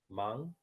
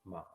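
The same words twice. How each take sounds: First: The pitch rises through the syllable. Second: The pitch dips low, then rises. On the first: "solamente está en tono dos y en tono tres" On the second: "solamente está en tono dos y en tono tres"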